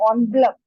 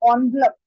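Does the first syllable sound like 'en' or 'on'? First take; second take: on; on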